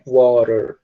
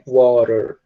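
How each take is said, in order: First: The middle T sounds like a quick R. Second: The middle T sounds like a quick R.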